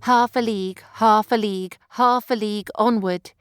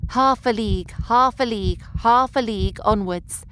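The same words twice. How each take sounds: First: HALF hit hard, then "a league" light, pounding; dactylic rhythm. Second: HALF hit hard, then "a league" light, pounding; dactylic rhythm again. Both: Shown as a demonstration. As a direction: stress "Half" and skim "a league", like a gallop. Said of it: "Listen again".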